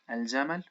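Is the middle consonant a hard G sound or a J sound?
J sound. The word has a soft j sound. This is the Modern Standard Arabic form. "Al-Jamal in modern standard Arabic"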